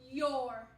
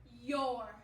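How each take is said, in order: First: The words are squeezed into one syllable. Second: The same.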